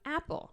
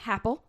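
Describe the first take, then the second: First: The word begins directly with the vowel. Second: The word begins with an added H sound. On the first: The speaker calls it right. "this is an apple" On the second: The speaker calls it wrong. "that's how they pronounce it"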